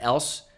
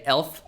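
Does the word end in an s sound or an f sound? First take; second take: s sound; f sound. First: The word ends with a clear s sound. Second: The word ends with a lisped f-like sound. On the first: The speaker calls it right. "when I'm trying to say athletic and else" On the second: The speaker calls it wrong. "I say elf"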